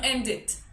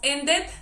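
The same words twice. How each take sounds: First: The vowel in the ending sounds like I. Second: The vowel in the ending sounds like E. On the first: The speaker calls it right. "sino ended. Como una I" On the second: The speaker calls it wrong. "no pronunciamos ended"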